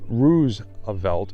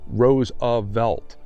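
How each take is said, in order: First: The first syllable rhymes with goose. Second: The first syllable does not rhyme with goose. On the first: It marks distance from the other branch of the family. The speaker calls it wrong. "decided to pronounce it as Roosevelt in order to distance herself" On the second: This is the family's own pronunciation. The speaker calls it right. "Our name is pronounced Roosevelt, and anyone who pronounces the first syllable as to rhyme with goose is to be admonished"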